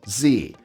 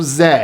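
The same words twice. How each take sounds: First: The letter is said as 'zee', American style. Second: The letter is said as 'zed', Canadian style.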